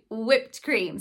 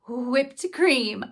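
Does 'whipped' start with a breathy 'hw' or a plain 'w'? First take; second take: w; hw. First: Whipped starts with a plain w sound. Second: Whipped starts with a breathy hw sound. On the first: "I just say whipped cream" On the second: "some people still keep that WH sound. I guess it would be more like, I can't even say it"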